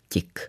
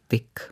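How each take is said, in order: First: The t before i is pronounced soft. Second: The t before i is pronounced hard. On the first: "nemůžeme úplně zavrhnout tu výslovnost tik" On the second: "měli bychom tedy striktně vyslovovat tik"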